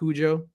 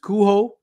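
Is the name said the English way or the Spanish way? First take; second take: English; Spanish. First: The name is said with an English-style pronunciation. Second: The name is said with a Spanish-style pronunciation. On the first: This is the common but mistaken reading. The speaker calls it wrong. "and not Cujo" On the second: This follows how the author meant it. The speaker calls it right. "it's supposed to be pronounced Cujo"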